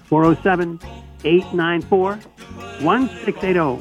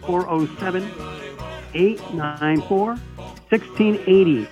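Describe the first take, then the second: First: It is said at normal speed. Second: It is said slowly and carefully.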